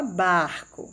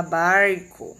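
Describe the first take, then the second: First: Barco with a throaty Rio R, like "bahco"; Carioca R in barco. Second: Barco with a curled country R from the interior; São Paulo R in barco. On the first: Teacher showing the Rio de Janeiro R in barco. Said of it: "Rio de Janeiro se fala barco". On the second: Teacher showing the São Paulo interior R in barco. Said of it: "Em vez de barco, eles vão falar". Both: Shown as a demonstration.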